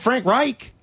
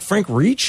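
First: The surname is said with the usual vowel. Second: The surname is said to sound like 'reach'. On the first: The speaker calls it right. "He didn't say Frank Reich" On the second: The speaker calls it wrong. "He called him like Frank Reach"

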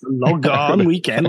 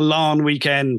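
First: The name is said as two syllables, Lochan. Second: The name sounds almost like the word long. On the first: The name is read from its spelling. The speaker calls it wrong. "When people read it, that doesn't work at all. They just go" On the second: It sounds like a long weekend. The speaker calls it right. "it sounds like, you know, long weekend"

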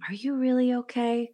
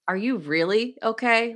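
First: It is said in a sweet, gentle tone. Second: It is said in a sarcastic tone.

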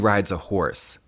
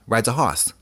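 First: The R sound after the vowel is pronounced. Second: The R sound after the vowel is dropped. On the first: "The word is, that is a horse" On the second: "my mom and other people around like Boston ... they would say"

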